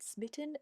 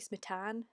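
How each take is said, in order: First: The name's ending rhymes with kitten. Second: The name's ending does not rhyme with kitten. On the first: The speaker calls it wrong. "I keep pronouncing it Smitten as in like kitten" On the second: The speaker calls it right. "it should be Smitan"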